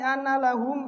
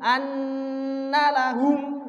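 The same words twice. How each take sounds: First: The n is cut short without a nasal hum. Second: The n is held with a long nasal hum. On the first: The speaker calls it wrong. "dengungnya enggak diperhatikan" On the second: The speaker calls it right. "padahal dengung"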